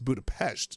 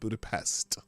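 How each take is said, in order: First: It is said the local Hungarian way. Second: It is said the usual English way. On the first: The speaker calls it right. "that's how they say Pest" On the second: The speaker calls it wrong. "not Budapest"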